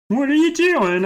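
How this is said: It is said in a put-on Alex voice.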